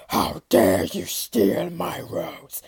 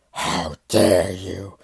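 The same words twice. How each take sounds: First: Slow, menacing whisper; beast's whispered growl. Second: Deep, slow monstrous growl; beast growl. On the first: Beast menacing the rose thief, slow whispered threat. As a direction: hiss it low like a threat. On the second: Furious Beast confronting the rose thief, deep slow growl. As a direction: drag the words out from deep in the chest. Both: Acted. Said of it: "it growled".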